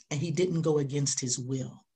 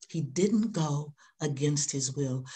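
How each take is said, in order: First: Said in the usual way. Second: Slower, weighing "didn't" each time; slower repeat. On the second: Shown as a demonstration. Preacher repeating the line slowly for the congregation.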